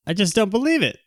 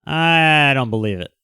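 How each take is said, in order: First: Disbelief pitched up high; a higher, sharper second I don't believe it; emphatic disbelief. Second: Slow, drawn-out disbelief; a slow, stunned I don't believe it. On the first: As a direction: throw it up high, incredulous. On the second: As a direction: let each word drag in doubt. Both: Real, not acted.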